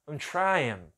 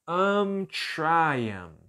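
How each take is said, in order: First: Said fast, the word I'm nearly disappears. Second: The word I'm is clearly and fully pronounced.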